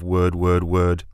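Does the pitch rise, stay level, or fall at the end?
level. The pitch stays level like a plain statement.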